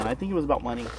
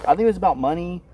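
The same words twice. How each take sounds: First: Said in the usual way. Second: Louder, firmer repeat. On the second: Real, not acted.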